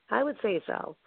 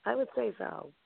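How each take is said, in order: First: Said in the usual way. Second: Soft aside. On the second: Real, not acted. Repeats phrase twice.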